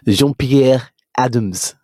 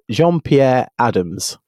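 First: The name is said with a French accent. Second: The name is said with an English accent.

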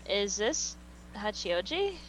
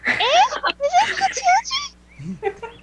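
First: It is said in a normal voice. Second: It is said in a high-pitched voice.

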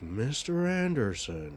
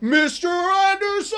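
First: It is said quietly and restrained. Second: It is screamed loudly.

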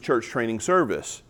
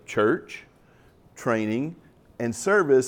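First: The words run together as one single name. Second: Each word is stressed and set apart by pauses. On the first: It is the name of one program. "at the time, it was the idea, it was Church Training Service" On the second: They are three different actions and activities. "emphasize them in a different way"

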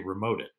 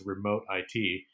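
First: The final part is said as the word 'it'. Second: The final part is spelled out as letters I-T. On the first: It means accessing your stuff remotely. "we actually say remote it" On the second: It refers to information technology. "you can talk about it as remote IT"

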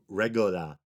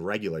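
First: The word is said in an imitated foreign accent. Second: The word is said in a standard American accent. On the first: "he said regular, something like that" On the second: "instead of saying regular"

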